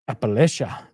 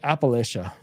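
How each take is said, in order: First: It is said with a Spanish-like Latino inflection. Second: It is said in a plain English accent.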